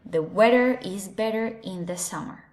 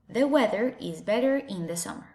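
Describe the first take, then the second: First: It is said in an American English accent. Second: The same.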